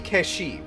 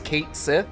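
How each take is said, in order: First: The name is blended into one word. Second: The name is said as two separate words. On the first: This is the traditional pronunciation. "That's how it's supposed to be pronounced" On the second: This is the pronunciation used in the newer game. "in F F seven Rebirth it was going to be pronounced as"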